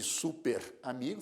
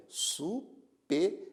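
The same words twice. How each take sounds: First: "super amigo" split wrongly as su-per-a-mi-go. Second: "superamigo" said as su-pe-ra-mi-go, the r joining the a; right split. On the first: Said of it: "Em vez de". ("super amigo" com a divisão errada) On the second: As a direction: show the right break in "superamigo". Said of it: "fica superamigo". ("superamigo" com a divisão correta) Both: Shown as a demonstration.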